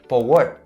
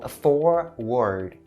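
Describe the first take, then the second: First: The word ends with a T sound. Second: The word ends with a D sound. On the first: The speaker calls it wrong. "mistake it for the T sound and say forward" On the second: The speaker calls it right. "it also has the D sound to end the whole word"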